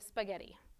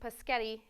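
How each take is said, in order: First: The word begins with an s sound. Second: The word begins with a p sound. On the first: The speaker calls it right. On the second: The speaker calls it wrong.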